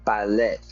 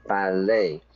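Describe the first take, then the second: First: Ballet said with a short final e, bal-LEH; learner's ballet, end vowel cut short; wrong ballet. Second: Ballet said BAL-ay with a long AY; teacher's ballet, French ending kept; correct ballet. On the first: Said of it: "we don't go to the ballet". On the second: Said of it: "we go to the ballet". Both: Shown as a demonstration.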